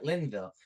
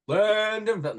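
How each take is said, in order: First: The middle syllable is left out. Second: The middle syllable is clearly said. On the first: The speaker calls it wrong. "Like he just cut out the done part" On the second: The speaker calls it right. "it's Lindenville"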